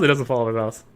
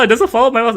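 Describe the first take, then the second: First: Low mock repeat. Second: Said in the usual way. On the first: Streamer echoing his own complaint, low and soft. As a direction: lower and much softer.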